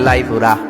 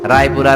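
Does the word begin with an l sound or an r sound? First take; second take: l sound; r sound. First: The word begins with an l sound. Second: The word begins with an r sound.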